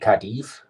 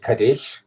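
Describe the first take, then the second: First: It is said with a Spanish pronunciation. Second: It is said with an English pronunciation. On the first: The speaker calls it right. "but it's actually Cadiz" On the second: The speaker calls it wrong. "English would say Cadiz"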